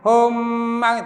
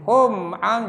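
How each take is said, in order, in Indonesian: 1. Huruf m kabur menyatu dengan vokal setelahnya. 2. Huruf m dibunyikan dengan jelas sebelum vokal.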